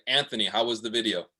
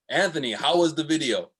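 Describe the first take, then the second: First: It is said seriously, without a smile. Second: It is said smiling, with excitement.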